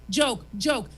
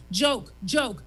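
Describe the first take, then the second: No difference in how they are said.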